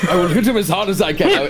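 It is said in a deep put-on voice. The speaker calls it right.

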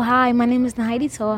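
The greeting sounds warm and friendly. The caller sounds like a real, personable person. The speaker calls it right. "And a good tone is like"

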